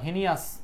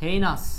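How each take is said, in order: First: The first syllable sounds like 'hee'. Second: The first syllable sounds like 'hay'. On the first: The speaker calls it wrong. "হিনাস বা হিনিয়াস বললে ভুল হবে" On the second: The speaker calls it right. "এটার উচ্চারণ হচ্ছে হেইনাস"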